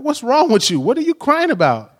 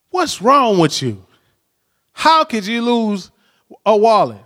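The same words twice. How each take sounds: First: High-pitched, retold startled questions; concerned questioning. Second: Mock scolding. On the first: Husband on phone to crying wife, high startled concern. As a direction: ask in acted alarm, voice lifted. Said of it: "She's crying". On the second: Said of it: "I could have been like".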